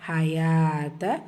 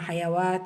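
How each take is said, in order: First: The ya runs straight into a long a. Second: A w sound is heard after the ya. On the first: The speaker calls it right. "So அப்போ இப்போ எப்படி சொல்லணும்?" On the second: The speaker calls it wrong. "இந்த இடத்துல நம்ம ஹயவாத்த அப்படின்னு சொல்லலைன்னா"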